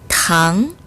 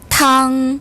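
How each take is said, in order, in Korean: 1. 중간 높이에서 높게 올라가요. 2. 높은 소리에서 평평하게 유지돼요.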